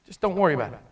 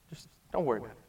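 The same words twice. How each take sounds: First: Softer, reassuring master; gentle forgiveness. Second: Much softer and lower, almost to nothing; hushed forgiveness. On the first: Master forgiving the slave's debt, soft and reassuring. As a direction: let him off gently. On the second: Master forgiving the slave, near-silent reassurance. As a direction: breathe it out, barely there. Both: Acted. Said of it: "He said".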